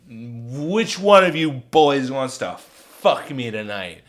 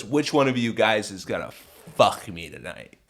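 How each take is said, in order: First: Slow, loud, slurred come-on; slow, heavy drunken demand; insistent drunk woman. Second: Said in the usual way. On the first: Retold or imitated. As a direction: drag it out loudly like a pushy drunk. Drunk woman insists a second time.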